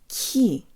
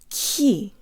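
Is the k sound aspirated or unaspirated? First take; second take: aspirated; aspirated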